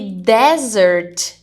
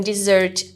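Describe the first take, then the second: First: The stress is on the first syllable. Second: The stress is on the last syllable. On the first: It means a dry, sandy region. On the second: It means a sweet course after a meal.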